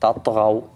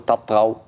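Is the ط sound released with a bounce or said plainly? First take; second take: bounce; plain. First: The ط is released with a short echoing bounce. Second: The ط is said plainly without a bounce. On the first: The speaker calls it right. "فلازم تقلقل الطاء" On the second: The speaker calls it wrong. "ما تقول تطغوا"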